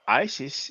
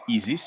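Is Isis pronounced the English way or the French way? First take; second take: English; French. First: The name is pronounced with English sounds. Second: The name is pronounced with French sounds. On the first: "what we call Isis in Greek and in English" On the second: "we pronounce it Isis in French"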